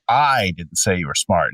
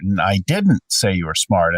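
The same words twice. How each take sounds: First: I said with clear stress, rest of the sentence plain. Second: Didn't punched, the other words kept plain; stress on DIDN'T. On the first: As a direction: lean on the word I, then let the rest fall. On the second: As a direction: hit the word didn't. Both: Shown as a demonstration. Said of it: "emphasize a different word".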